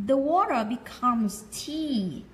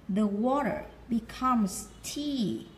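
No difference in how they are said.

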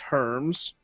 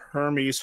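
First: The name is said as one syllable. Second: The name is said with two syllables. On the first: The speaker calls it wrong. "kept calling Hermes Herms" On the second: The speaker calls it right. "the guy kept calling Hermes"

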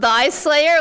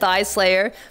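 First: The first sound is a voiced 'th', as in 'thy'. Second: The first sound is a voiceless 'th', as in 'thigh'. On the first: The speaker calls it right. "like THY" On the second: The speaker calls it wrong. "I said Thigh Slayer"

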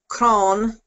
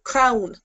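First: The vowel sounds like the 'o' in 'on'. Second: The vowel sounds like the 'ow' in 'crown'. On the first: "in Connacht, it would be on" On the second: "And then Munster, we have Crown"

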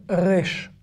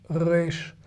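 Both takes have the same delivery.

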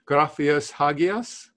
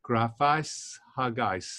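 First: The A in the ending is separately stressed. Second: The ending glides as one smooth diphthong. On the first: The speaker calls it wrong. "maybe I'm putting, emphasizing the A, and I shouldn't be doing that" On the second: The speaker calls it right. "Maybe that'll be the better way of doing it"

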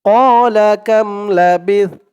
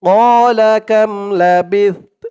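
Both takes have the same delivery.

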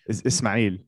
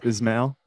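First: The name is said with an Arabic pronunciation. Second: The name is said with an American pronunciation. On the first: "The correct way to say it in Arabic is Ismail" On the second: "I grew up in America, so it's Ismail"

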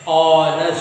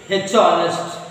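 First: The word begins with a vowel sound, no h. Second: The word begins with an audible h sound. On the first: The speaker calls it right. "When you pronounce honest, a sound is there" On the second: The speaker calls it wrong. "You won't say h honest, wrong"

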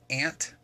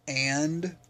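First: The word ends with a t-like sound. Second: The word ends with a clear d sound. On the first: "I say ant, like there's a weird sound that comes out" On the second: "I don't say and"

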